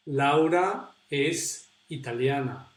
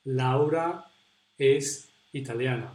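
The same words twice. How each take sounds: The two takes are said the same way.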